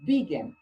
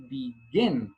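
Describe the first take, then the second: First: BE-gin, with "begin" stressed on the first syllable; wrong first-syllable stress. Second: Be-GIN, with "begin" stressed on the last syllable; slowly, a low "be", then lean on "gin" in "begin"; second-syllable stress. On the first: Teacher shows learners how not to say it, "begin" stressed on its first syllable. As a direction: punch the opening "be" of "begin", let "gin" drop. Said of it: "The stress is not on the first syllable". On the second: Teacher shows learners the right way, "begin" stressed on its last syllable. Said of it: "The stress is on the second".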